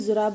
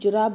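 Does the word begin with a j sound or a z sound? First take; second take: z; j. First: The word starts with a z sound. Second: The word starts with a j sound. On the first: The letter carries a dot below it. "नुक्ता लगाना होगा बिंदी, तभी ये जुराब बनेगा" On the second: The letter has no dot below it. "Otherwise ये जुराब बोलना पड़ता है"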